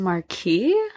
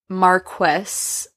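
First: The title is said the French way. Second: The title is said the English way. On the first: "I always thought it was Marquis. Maybe it's like English versus French pronunciation" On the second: "she runs into this Marquess"

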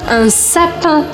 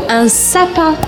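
The two takes are said the same way.

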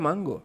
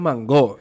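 First: The stress is on the first syllable. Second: The stress is on the last syllable. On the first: This is how most people say it. "todo el mundo le dice mango" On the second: This is how the speaker's own community says it. "como si tuviera un acento en la O"

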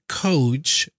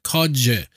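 First: The word ends with a voiceless 'ch' sound. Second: The word ends with a voiced 'j' sound.

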